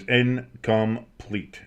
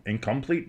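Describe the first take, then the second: First: "incomplete" drawn out in separate syllables, leaning on "come"; stress on "come". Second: "incomplete" said softer and quicker, rising at the end; questioning repeat. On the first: Announcer calling a missed pass, odd stress on the "come" in "incomplete". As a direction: slowly break up "incomplete", emphasizing the middle "come". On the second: Announcer checking his own odd wording, "incomplete" as a soft rising question. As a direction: try "incomplete" over quietly as a question. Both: Real, not acted. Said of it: "I put a little emphasis on the "come".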